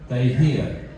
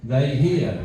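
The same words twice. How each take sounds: The two takes are said the same way.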